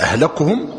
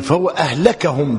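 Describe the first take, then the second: First: أهلكهم with u after the kaf; damma on the kaf. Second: أهلكهم with a after the kaf; fatha on the kaf. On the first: Teacher recaps the first reading, أهلكهم as ahlakuhum. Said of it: "وأهلكهم بالضم". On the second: Teacher explains the second reading, أهلكهم as ahlakahum. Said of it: "بالفتح". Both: Shown as a demonstration.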